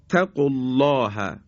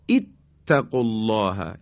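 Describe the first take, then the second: First: The word runs on with no opening vowel. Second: The word begins with a short 'i' vowel.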